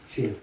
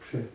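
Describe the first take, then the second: First: The ch sound is soft, palatalized. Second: The ch sound is hard, not palatalized. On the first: This is the Russian way of saying it. "По-русски «че» всегда мягко произносится" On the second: This is the Ukrainian and Belarusian way of saying it. "Украинцы и белорусы произносят ... твердо"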